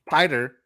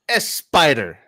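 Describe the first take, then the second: First: The word starts directly with an s sound. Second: The word starts with an added es sound. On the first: The speaker calls it wrong. "You would have pronounced this one Spider" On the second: The speaker calls it right. "No, it's S spider"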